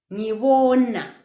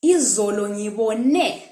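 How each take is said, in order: First: "Ngibona" with a long falling tune; present-tense intonation. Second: Slow "ngibone", lifted on the last syllable; "ngibone" ending on a raised, held "ne"; past-tense intonation. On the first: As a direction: draw out the "bo" in "Ngibona", then let it fall. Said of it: "when we're talking in the present tense". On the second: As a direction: push the final "ne" of "ngibone" up. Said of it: "intonation when we're talking in past tense". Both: Shown as a demonstration.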